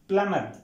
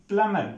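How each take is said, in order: The two takes are said the same way.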